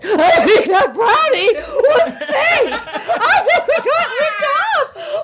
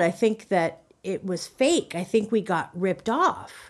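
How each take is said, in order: First: It is said in a frantic, agitated way. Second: It is said in a calm, plain way.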